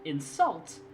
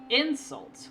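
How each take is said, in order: First: The stress is on the second syllable. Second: The stress is on the first syllable. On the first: It names an action, to insult. "when we put the stress on the second syllable" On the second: It names a thing, an insult. "We put the stress on the first syllable and it means the noun"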